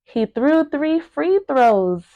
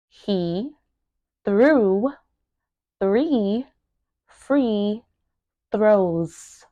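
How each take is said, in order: First: Said in the usual way. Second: Word by word. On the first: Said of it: "pronouncing each word". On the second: Shown as a demonstration. Teacher breaking down a tongue twister, word by word. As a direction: separate words with long pauses. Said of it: "make sure that you are pronouncing each word".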